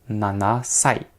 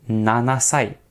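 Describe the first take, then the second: Both takes have the same delivery.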